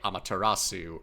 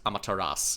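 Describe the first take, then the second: First: The final su syllable is clearly pronounced. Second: The final su syllable is dropped or silent. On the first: The speaker calls it wrong. "in English, you would probably hear people say Amaterasu" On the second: The speaker calls it right. "it's actually supposed to be pronounced Amaterasu"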